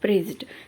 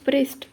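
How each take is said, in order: First: The word ends with a d sound. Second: The word ends with a t sound. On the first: "ड आता है ना, ड" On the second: "अभी ट आ रहा है साउंड"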